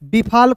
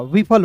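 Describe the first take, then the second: First: It begins with b and has a long middle vowel. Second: It begins with v and has a short middle vowel. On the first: The speaker calls it wrong. "बिफाल कोई शब्द होगा नहीं" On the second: The speaker calls it right. "ये क्या हो गया आपका सही हो गया"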